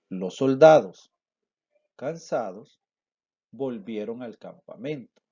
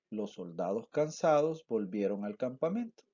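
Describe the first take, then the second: First: Short pauses come before and after 'cansados'. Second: The sentence flows without pauses around 'cansados'. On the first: "Repito la lectura"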